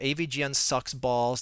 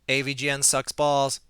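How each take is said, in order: First: It is read in a natural speaking voice. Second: It is read in a flat, robotic monotone.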